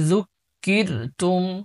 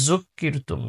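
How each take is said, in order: First: The first consonant is pronounced soft. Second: The first consonant is pronounced hard. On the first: The speaker calls it right. "জালের উচ্চারণ নরম করতে হবে" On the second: The speaker calls it wrong. "জু এরকম শক্ত করে ফেলে"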